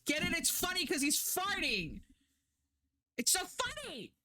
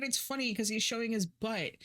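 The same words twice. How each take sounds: First: Sarcastic mockery. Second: Said in the usual way. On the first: Reviewer ridiculing the show's fart gag, high and mocking. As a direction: sneer at the cheap fart gag in a high mock voice.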